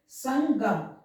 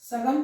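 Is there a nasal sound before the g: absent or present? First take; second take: present; absent. First: It is said with a nasal sound before g. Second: It is said with no nasal sound before g. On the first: The speaker calls it right. "यहां हम उच्चारण कर रहे हैं नाक से" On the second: The speaker calls it wrong. "सगम तो शब्द नहीं होगा"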